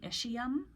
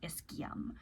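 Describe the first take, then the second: First: The word is said the American way. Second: The word is said the European way. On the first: "Here in America, we call this the ischium" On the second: "in Europe and many other places, they will pronounce it ischium"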